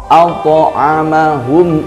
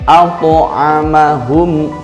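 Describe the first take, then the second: Both takes have the same delivery.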